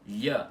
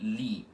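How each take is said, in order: First: The i is short and weak, like a glide. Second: The i is a full vowel, its own syllable. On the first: The speaker calls it right. "o som dela é assim" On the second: The speaker calls it wrong. "ela não tem o som de li, como se ela fosse uma sílaba"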